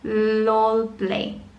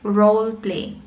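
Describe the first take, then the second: First: The first word begins with an L sound. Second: The first word begins with an R sound. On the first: The speaker calls it wrong. "ang sabi ng estudyante mo" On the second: The speaker calls it right.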